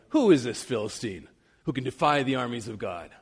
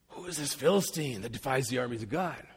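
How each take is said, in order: First: It sounds defiant and confident, belittling the enemy. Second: It sounds awed, making the enemy seem huge.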